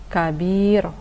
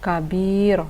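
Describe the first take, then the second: First: The R sound is heavy and thick. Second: The R sound is light and thin. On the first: The speaker calls it wrong. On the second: The speaker calls it right. "Ra dibaca tipis"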